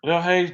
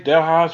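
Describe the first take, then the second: First: Hayes said with a long "ay", rhyming with days; alternative pronunciation. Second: Hayes said with an "eye" vowel, like "highs"; alternative pronunciation. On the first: Host offers one way to say the store's name, alternative pronunciation. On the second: Host offers another way to say the store's name, alternative pronunciation. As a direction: say Hayes to rhyme with "eyes". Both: Shown as a demonstration. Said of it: "however way you pronounce it".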